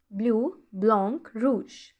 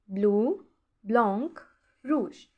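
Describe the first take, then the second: First: Said in the usual way. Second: Bleu, blanc, rouge each said alone with a pause after; slow teacher drill of Bleu, blanc, rouge with gaps; word by word with pauses. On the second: Shown as a demonstration. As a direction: space out Bleu, blanc, rouge one by one for pupils to copy. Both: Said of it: "teacher repeats French colours".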